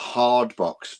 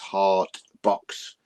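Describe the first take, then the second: First: The first word ends with a D sound. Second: The first word ends with a T sound.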